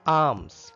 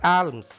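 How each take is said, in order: First: No L sound is pronounced in the word. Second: An L sound is pronounced in the word. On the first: The speaker calls it right. "L is silent here" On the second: The speaker calls it wrong. "It is not alms"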